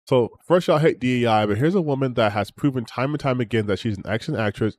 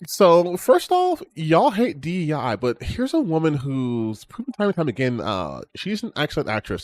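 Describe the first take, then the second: First: It is read in a normal voice. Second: It is read in a mocking put-on voice.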